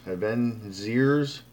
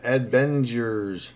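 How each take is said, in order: First: Adventures said very slowly as a question, ending up; slow questioning retry of Adventures; unsure second try. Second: Adventures said very slowly, syllable by syllable, ending in a fall; slow deliberate try at Adventures; careful spelling-out. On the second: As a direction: sound out Adventures slowly and firmly. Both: Shown as a demonstration. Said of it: "How do you pronounce that?".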